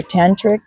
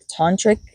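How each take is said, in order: First: First syllable of "tantric" as TAN; tantric with short A. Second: First syllable of "tantric" as TAHN; tantric with broad AH. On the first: Reader trying the other pronunciation, "tantric" as TAN-trik. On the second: Reader unsure how to say it, "tantric" pronounced TAHN-trik. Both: Shown as a demonstration. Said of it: "I don't know how to say that".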